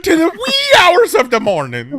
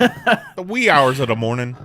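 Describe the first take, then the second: First: High, loud mock-Scottish holler; hammed-up Scottish accent. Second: Laughing Pennsylvania Dutch imitation; mock Pennsylvania Dutch accent. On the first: Friend mocks the list reader's slip, hammed-up Scottish accent. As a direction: parody a Scottish accent, pitched way up. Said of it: "like, a Scottish accent". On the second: Friend teases the odd accent, mock Pennsylvania Dutch. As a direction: lightly put on Pennsylvania Dutch, amused. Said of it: "that was like Pennsylvania Dutch".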